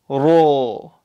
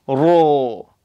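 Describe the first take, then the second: First: The vowel is a full-mouthed, rounded 'o'. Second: The vowel is a full-mouthed, rounded 'o'.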